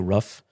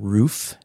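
First: The vowel is short, like a dog's ruff. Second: The vowel is long, like in 'boot'. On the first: This is how many local people say it. "here in the Midwest, a lot of people say rough" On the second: This is how the speaker grew up saying it. "I grew up saying roof"

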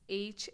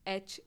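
First: The letter name is said as 'aitch'. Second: The letter name is said like 'etch'. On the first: "since it's H in US" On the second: "but it's etch in India"

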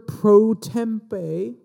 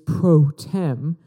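First: The term is said in a longer form. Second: The term is said in a short form. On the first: The speaker calls it wrong. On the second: The speaker calls it right.

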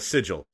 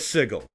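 First: The g is pronounced soft, as in 'gem'. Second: The g is pronounced hard, as in 'go'. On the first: The speaker calls it right. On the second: The speaker calls it wrong.

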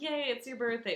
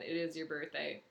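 First: It is said in an excited, cheerful tone. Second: It is said as a flat, plain statement.

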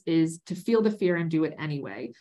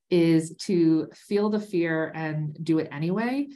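First: The voice falls at the end like a statement. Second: The voice rises at the end like a question. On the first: The speaker sounds certain of the advice. The speaker calls it right. "Let me say that again" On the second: The speaker sounds unsure of the advice. The speaker calls it wrong. "I actually hated how I said that as a question"

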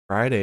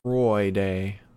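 First: It is said in a plain English accent. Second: It is said in an Australian accent.

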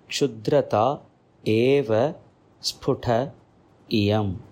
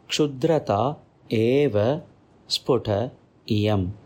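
First: The words are said separately, each one distinct. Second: The words are said separately, each one distinct.

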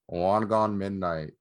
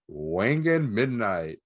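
First: The title is said in a flat, unexcited way. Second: The title is said in an excited, lively way. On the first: "That sounded so much less excited" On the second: "I like the other way"

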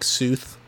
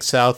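First: The vowel is stretched toward an 'oo' sound. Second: The vowel is a plain 'ow' sound. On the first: "they say, like, Sooth" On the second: "instead of saying"

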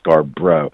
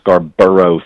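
First: The name is said with two syllables. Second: The name is said with three syllables. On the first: The speaker calls it right. "but just two syllables" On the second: The speaker calls it wrong. "not like Scarborough Fair"

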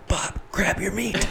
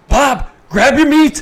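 First: The line is said quietly. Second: The line is yelled loudly.

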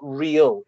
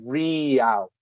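First: The vowel is short and clipped. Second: The vowel is drawn out and long. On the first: The speaker calls it wrong. "it's not real" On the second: The speaker calls it right. "It's elongated"

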